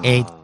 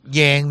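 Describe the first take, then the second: First: The word begins directly with a vowel. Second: The word begins with a y sound. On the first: The speaker calls it right. "真系真真正正嘅日文发音嚟嘅" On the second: The speaker calls it wrong. "读yen 咧系错噶"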